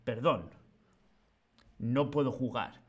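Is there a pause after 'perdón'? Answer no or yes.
yes. There is a pause after the first word. The speaker calls it wrong. "No es"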